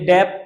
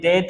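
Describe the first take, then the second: First: A b sound is heard before the t. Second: No b sound is heard before the t. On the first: The speaker calls it wrong. "ये डेप्ट नहीं होता" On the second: The speaker calls it right. "ये डेट होता है"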